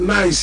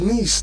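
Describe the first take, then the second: First: The name is said the local way. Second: The name is said the French way. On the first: This is how people here say it. "We call it Nice here" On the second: This is how people in France say it. "they said it's Nice there in France"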